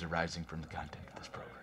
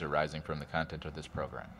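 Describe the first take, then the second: First: It is said dramatically, full of angst. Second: It is said plainly, without emotion. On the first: The speaker calls it right. "Give me angst" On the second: The speaker calls it wrong. "That's not how to say that"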